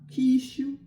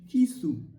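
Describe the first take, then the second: First: The middle consonant is an 'sh' sound. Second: The middle consonant is a plain 's' sound. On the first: The speaker calls it wrong. "Not Kishu" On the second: The speaker calls it right. "Tomorrow is Kisu"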